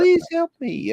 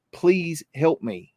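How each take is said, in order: First: Put-on much higher, thin little girl pleading; little girl ghost voice. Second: Slow, lightly voiced plea of a little girl; little girl's plea. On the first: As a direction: squeak it like a frightened ghost child. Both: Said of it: "I hear this little girl say".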